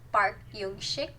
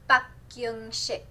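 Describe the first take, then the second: First: The name is said with English-style sounds. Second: The name is said with Korean-style sounds. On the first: The speaker calls it wrong. "It's not Park Yung Shik" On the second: The speaker calls it right. "it's Park Yung Shik"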